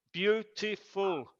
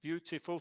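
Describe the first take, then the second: First: "Beautiful" slowly, in three beats, beau-ti-ful; syllable by syllable. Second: Said in the usual way. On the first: Shown as a demonstration. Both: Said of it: "three syllables".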